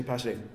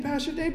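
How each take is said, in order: First: Said in the usual way. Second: High, tearful call of the pastor's name; imitating the injured driver crying out to her pastor; crying woman's plea. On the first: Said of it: "no, she didn't say". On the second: Injured driver calling to pastor, a lightly voiced tearful high plea. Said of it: "And she was crying".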